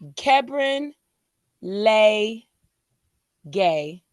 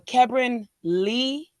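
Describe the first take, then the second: First: The middle syllable sounds like 'lay'. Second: The middle syllable sounds like 'lee'. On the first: The speaker calls it right. "but it's Lay like neighbor" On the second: The speaker calls it wrong. "or Kebron Lee"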